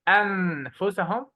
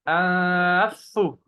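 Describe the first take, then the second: First: The n is pronounced fully and clearly. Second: The n merges into a doubled f sound. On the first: "We don't say أنفسهم. It's not clear" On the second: "And we don't double the fa. We don't say أنفسو. No, that's not correct"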